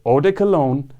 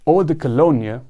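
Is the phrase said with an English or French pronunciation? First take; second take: English; French. First: It has an English pronunciation with a hard D. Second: It has a French pronunciation with a soft D. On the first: "in English" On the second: "in French"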